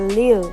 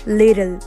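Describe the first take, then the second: First: The middle t sound is dropped. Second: The middle t sounds like a d. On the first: "कुछ लोग लील भी बोलते हैं" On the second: "I'm adding the letter D in this word"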